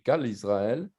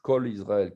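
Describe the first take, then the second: First: The first word is said with an A vowel. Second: The first word is said with an O vowel. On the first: The speaker calls it wrong. "qui s'écrit Kal Israël" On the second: The speaker calls it right. "qu'on sait qu'on doit dire Kol Israël"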